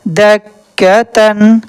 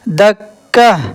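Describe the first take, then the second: First: The word ends with a full '-tan' sound. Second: The word ends on '-ah' without '-tan'. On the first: The reading continues into the next word. "अगर पढ़ना है और रवानी के साथ" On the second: The reader stops on this word. "अगर इस पर वक़फ़ करना है"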